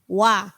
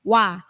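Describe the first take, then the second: The two takes are said the same way.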